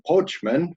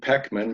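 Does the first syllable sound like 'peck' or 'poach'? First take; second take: poach; peck. First: The first syllable sounds like 'poach'. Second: The first syllable sounds like 'peck'. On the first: It is how French speakers say the name. "the Frenchmen, they always call me Poachman" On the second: It is how the family says the name. "we say Peckman"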